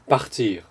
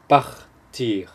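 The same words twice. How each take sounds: First: The word is said at normal speed. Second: The word is said slowly.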